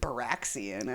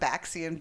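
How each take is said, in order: First: The name has an added R after the B. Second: The name has no R sound after the B.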